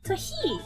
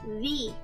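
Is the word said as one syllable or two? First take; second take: two; one. First: The word is stretched into two syllables. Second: The word is said as one short syllable. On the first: The speaker calls it right. "is the proper way to pronounce that" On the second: The speaker calls it wrong. "always hear people say the or the, but it's not"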